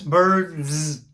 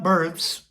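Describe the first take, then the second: First: The word ends with a buzzing z sound. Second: The word ends with a voiceless s sound. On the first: The speaker calls it right. "You want to make sure you get a Z" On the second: The speaker calls it wrong. "it's not birds"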